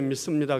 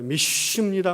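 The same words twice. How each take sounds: First: The word is said gently with a soft s. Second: The word is said forcefully with a tense s. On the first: "곱게 믿습니다 그런 게 아니라" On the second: "홀리 시옷이라 그러죠"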